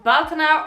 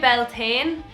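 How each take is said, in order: First: The word ends with a 'tinna' sound. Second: The word ends with a 'tane' sound. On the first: The speaker calls it right. "in Ireland, it's pronounced Baltana" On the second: The speaker calls it wrong. "if you say Beltane, I will come for you"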